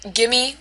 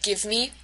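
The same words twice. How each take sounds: First: "gimme" with the v swallowed; reduced pronunciation. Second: Said in the usual way. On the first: Shown as a demonstration. Lecturer giving a phonological example, "gimme" with no v. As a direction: run it together as "gimme". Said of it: "both of these examples are phonological". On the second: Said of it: "instead of give me".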